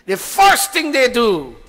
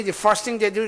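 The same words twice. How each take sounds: First: First said high, loud and slow; stress on first. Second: Said in the usual way. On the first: Shown as a demonstration. Preacher to congregation, first said high, loud and slow. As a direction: lean hard and slow on first.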